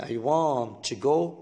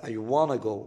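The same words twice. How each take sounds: First: Said in the usual way. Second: "I wanna go" with want to run together as wanna; reduced wanna. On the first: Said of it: "تقول I wanna go من غير to". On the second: Shown as a demonstration. Teacher showing students the short form "I wanna go". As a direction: drop the to, say "I wanna go". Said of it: "تقول I wanna go من غير to بقى".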